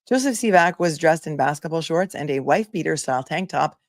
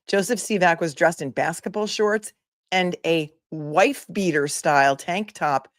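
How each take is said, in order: First: It is read in a plain, neutral tone. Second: It is read with a snarky, mocking tone. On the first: The reader presents the text without comment. "read that again with no snark" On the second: The reader is mocking the text. "Maybe I should read with a le- less snark"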